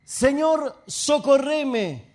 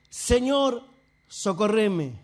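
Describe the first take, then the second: First: Raised, drawn-out cry for help; pleading. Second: Falling, more restrained plea; subdued pleading. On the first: Woman prostrate before Jesus begs for help, raised plea. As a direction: plead it strongly, stretching the last word. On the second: Woman humbled before Jesus begs for help, subdued plea. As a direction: let the plea sink humbly at the end. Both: Retold or imitated.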